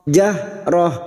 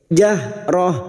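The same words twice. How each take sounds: The two takes are said the same way.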